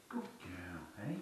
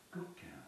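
First: Breathy whisper, soft praise for the dog. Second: High, soft praise for the dog. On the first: Trainer praising his dog in a whisper. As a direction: hush it to the dog like a secret. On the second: Trainer cooing praise to his dog softly. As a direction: coo it gently up high. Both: Real, not acted.

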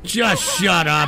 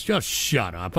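First: Slow, raised-voice exasperation; irritated order. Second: Low, quiet, fed-up dismissal; weary irritation. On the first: Streamer silencing a chatter, slow angry order. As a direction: drag it out, more forceful and annoyed. Repeats it at interrupting chat. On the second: Streamer dismissing a chatter's joke, weary low mutter. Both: Real, not acted.

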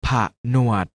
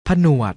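First: ผะหนวด split into ผะ and หนวด; short ผะ, tiny gap, then หนวด; syllable by syllable. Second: Said in the usual way. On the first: Shown as a demonstration. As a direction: sound out ผะหนวด in two beats. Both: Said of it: "อ่านว่า".

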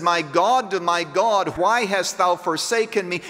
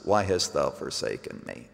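First: Raised-pitch cry of appeal, mildly acted; preacher voicing an anguished cry. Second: Low, soft echo of the cry; hushed unanswered cry. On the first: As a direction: cry it out higher, without shouting. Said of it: "Jesus cries out and says". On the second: Acted. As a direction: let it sink into the silence. Cry repeated after silence from heaven.

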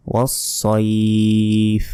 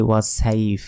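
First: ওয়াস-সাইফ as a slow "was-soiiif"; thick s, "soi" held long in ওয়াস-সাইফ; heavy rounded s. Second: ওয়াস-সাইফ said quickly as "was-saif"; light s and open "ai" in ওয়াস-সাইফ; short, unstretched "saif"; wrong thin s. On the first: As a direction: recite ওয়াস-সাইফ with a drawn-out rounded ending. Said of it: "সইফ বলবেন". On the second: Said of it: "এটা ভুল". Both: Shown as a demonstration.

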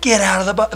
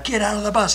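First: Screaming. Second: Higher, urgent call to the bus driver; screaming. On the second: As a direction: yell at the driver to get out. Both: Retold or imitated. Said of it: "I'm screaming".

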